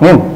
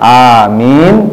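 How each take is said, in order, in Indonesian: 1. Hanya suku kata terakhir yang diucapkan. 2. Kedua suku kata diucapkan. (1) "sampai amin pun dipotong ya" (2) "Padahal amin, amin, amin begitu"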